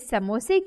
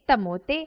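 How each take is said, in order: First: The word starts with a clear s sound. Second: The s sounds are replaced by t sounds.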